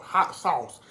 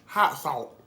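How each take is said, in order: First: It is said with a standard pronunciation. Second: It is said with a Georgia accent. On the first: "Hot sauce, not hot salt" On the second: "I said the Georgia girl way"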